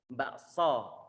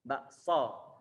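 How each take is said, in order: Both takes have the same delivery.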